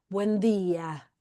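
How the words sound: The pitch falls downward through the phrase. "hace una entonación para abajo"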